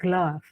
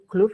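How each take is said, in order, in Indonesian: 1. Vokalnya terdengar seperti 'uh' pendek. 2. Vokalnya terdengar seperti 'o'. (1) "tapi glove. Glove, A ya" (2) "bukan glove"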